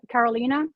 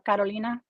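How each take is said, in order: First: The name is pronounced in an English way. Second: The name is pronounced in a Spanish way.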